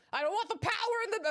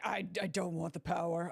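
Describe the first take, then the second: First: High, fast hammed-up plea; mock pleading lover. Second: Low, hesitant imitation; mock submissive lover. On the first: Streamer imagining Edgeworth refusing power, mock pleading and frantic. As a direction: rush it out much higher. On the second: Streamer imagining Edgeworth at home, mock submissive and low. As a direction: stammer it out, pitched down. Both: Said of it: "And then he's like".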